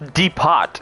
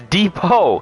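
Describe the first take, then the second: First: The T in the word is pronounced. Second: The T in the word is silent. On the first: The speaker calls it wrong. "No one says depot" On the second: The speaker calls it right. "It's depot. How is the T silent?"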